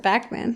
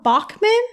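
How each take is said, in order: First: "Bachman" with a flat "a" as in back, "Back-man"; own pronunciation. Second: "Bachman?" with a broad "Bahk" as in Bach, rising like a question; questioning pronunciation. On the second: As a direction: echo the name the way the others said it, "Bahk-man". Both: Shown as a demonstration. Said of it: "I pronounce it Bachman".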